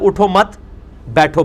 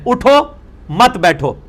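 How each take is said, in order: First: The pause comes after 'mat'. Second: The pause comes after 'utho'.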